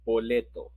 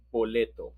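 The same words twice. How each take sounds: The two takes are said the same way.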